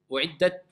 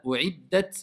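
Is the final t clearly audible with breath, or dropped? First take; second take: dropped; audible. First: The final t is barely heard. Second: The final t is released with audible breath. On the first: The speaker calls it wrong. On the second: The speaker calls it right.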